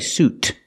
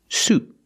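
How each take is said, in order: First: The final T is released with a puff of air. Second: The final T is stopped without releasing air. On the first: The speaker calls it wrong. "Don't say suit" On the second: The speaker calls it right. "the T is a stop T"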